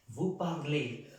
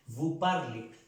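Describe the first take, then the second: First: The word ends in a clear 'ay' vowel. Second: The final vowel is dropped, like parle. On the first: The speaker calls it right. "como si fuera con un acento aquí" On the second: The speaker calls it wrong. "No podemos decir vous parlez"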